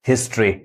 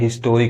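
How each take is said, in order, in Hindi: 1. इसमें दो अक्षर हैं, 'stree' पर खत्म होता है। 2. इसमें तीन अक्षर हैं, पूरे 'to' स्वर के साथ। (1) "री पढ़ा रहा है" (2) "मैक्सिमम लोग उसको भी गलत पढ़ते हैं"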